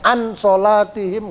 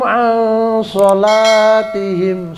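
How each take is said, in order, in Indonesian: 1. N dibaca jelas dan penuh. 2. N samar dan tersamar, disengaukan. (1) "nggak boleh dibaca an sholatihim, nggak boleh" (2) "Tapi a dia agak samar"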